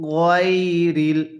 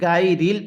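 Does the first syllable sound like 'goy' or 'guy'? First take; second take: goy; guy. First: The first syllable sounds like 'goy'. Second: The first syllable sounds like 'guy'. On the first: The speaker calls it right. "কিভাবে পড়ব? গয়রিল" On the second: The speaker calls it wrong. "যদি গাইরিল পড়ি তাহলে পড়াটা সহিশুদ্ধ হবে না"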